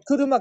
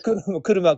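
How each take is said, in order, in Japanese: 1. ピッチパターンは「Biruma」と違う。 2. ピッチパターンは「Biruma」と同じだ。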